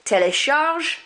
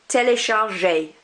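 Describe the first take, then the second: First: "Télécharge" pitched up, stopping on the ZH; "Télécharge" with no final vowel; silent final E. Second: "téléchargé" ending on a clear AY; "téléchargé" as tay-lay-shar-ZHAY; sounded accented E. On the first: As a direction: leave the E off the end of "Télécharge". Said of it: "I don't pronounce this one". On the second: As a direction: pronounce the final é in "téléchargé". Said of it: "I do pronounce this one". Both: Shown as a demonstration.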